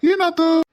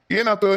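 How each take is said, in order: First: Sharp high alarmed question; alarmed what happened. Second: Said in the usual way. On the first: Acted. Husband finds wife sulking at the door, alarmed. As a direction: call out in sudden worry.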